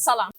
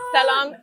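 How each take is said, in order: First: The s is a plain, clear s sound. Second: The s is lisped, like a th sound. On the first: This is how a speaker of another dialect says it. "my dad says salam" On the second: This is how a speaker of one dialect says it. "my husband does lisp when he speaks"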